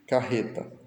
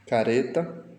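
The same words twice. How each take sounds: First: Carreta with rr as a throaty h; strong double R. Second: Careta with one light tap for r; single tapped R. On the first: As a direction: aspirate the rr in carreta. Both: Shown as a demonstration. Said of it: "para lê-las em voz alta".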